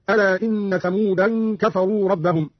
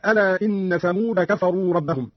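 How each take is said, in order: First: "ثمودا" as thamoodan with nasal n; tanween on Thamud. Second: Said in the usual way. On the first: Shown as a demonstration. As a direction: add an -an ending to "ثمودا" before "كفروا". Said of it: "بتنوين كلمة ثمود هكذا". ("ثمودا" بالتنوين) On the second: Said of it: "قرأ قالون بتنوين كلمة ثمود".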